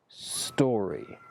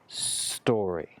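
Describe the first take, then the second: Both takes have the same delivery.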